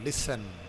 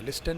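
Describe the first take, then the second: First: The middle t is silent. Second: The middle t is pronounced. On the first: The speaker calls it right. "टी silent है" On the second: The speaker calls it wrong. "लिस्टन नहीं बोलना"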